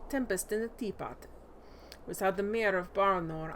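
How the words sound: It is read in a put-on Russian accent.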